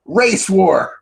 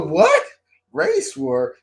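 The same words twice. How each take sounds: First: High mock-eager exclamation; imitated gleeful announcement. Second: Very high, disbelieving question; incredulous echo. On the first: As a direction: announce it like a cheery game. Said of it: "then she goes". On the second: Retold or imitated. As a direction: repeat it back in mock shock. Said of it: "I go".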